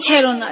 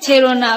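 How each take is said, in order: Both takes have the same delivery.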